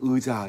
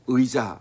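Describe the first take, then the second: First: The first vowel is flattened into a plain vowel. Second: The first vowel is said as a full diphthong. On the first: The speaker calls it wrong. "이게 안 돼서 의자 이러는 사람들이 있고" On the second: The speaker calls it right. "예를 들어서 의자 하는데"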